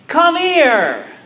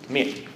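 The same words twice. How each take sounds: First: It is said in a warm, joyful tone. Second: It is said in a cold, threatening tone. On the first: A long-missed friend is being welcomed. "a friend who hasn't seen another friend in a long time" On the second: An enemy is calling someone to harm them. "an enemy saying"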